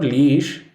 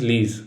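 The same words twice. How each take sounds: First: "leash" with a sh ending; "leash" ending in sh, wrong. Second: "lease" with a z ending; "lease" said LEEZ; right lease. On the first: Teacher showing students the wrong word, "leash" with sh. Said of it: "It is not leash". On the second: Teacher showing students the right word, "lease" as LEEZ. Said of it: "it is lease". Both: Shown as a demonstration.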